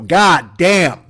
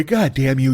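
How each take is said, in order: First: God damn drawn out and louder, a mock grand finale; final big goddamn. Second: Said in the usual way. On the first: Shown as a demonstration. Comedian announces his last goddamn of the show, louder and drawn out. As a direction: savor the last curse out loud. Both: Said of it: "I'm gonna say goddamn one more time".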